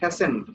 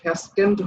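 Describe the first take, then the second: First: No k sound comes before the ending. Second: A k sound comes before the ending. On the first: The speaker calls it right. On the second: The speaker calls it wrong. "এর উচ্চারণ কিন্তু ফ্যাসকেন্ড হবে না"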